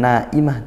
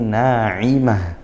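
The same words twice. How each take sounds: First: The middle consonant is a plain glottal stop. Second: The middle consonant is a pharyngeal ain sound. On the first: The speaker calls it wrong. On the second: The speaker calls it right. "ini pakai ain"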